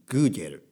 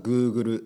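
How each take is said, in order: First: It is said with a Spanish pronunciation. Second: It is said with a Japanese pronunciation. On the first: "スペイン語だと" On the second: "日本語だとGoogle ですね"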